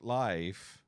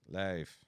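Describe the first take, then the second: First: The vowel glides like the 'i' in 'ride'. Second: The vowel is flattened, unlike the usual 'i' glide. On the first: The speaker calls it right. "not life" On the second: The speaker calls it wrong. "There's a difference there. It sounds weird"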